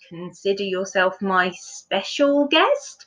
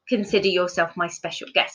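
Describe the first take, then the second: First: The voice rises at the end, sounding unsure. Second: The voice falls at the end, sounding ordinary.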